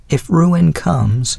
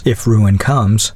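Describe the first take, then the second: First: Put-on lightly raised voice of a gracious old lady; a hint of the old widow's voice; elderly lady voice. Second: Said in the usual way. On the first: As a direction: speak as a kindly older woman. Mrs Callender begins.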